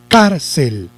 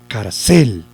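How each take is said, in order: First: The stress is on the first syllable. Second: The stress is on the last syllable. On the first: The speaker calls it right. "Si lo llevara en car, yo diría" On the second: The speaker calls it wrong. "si lo llevara en cel, yo diría"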